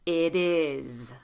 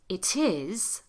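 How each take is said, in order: First: The t is a quick d-like tap. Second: The t is a crisp, released t. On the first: The speaker calls it right. "this T" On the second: The speaker calls it wrong. "Not it is"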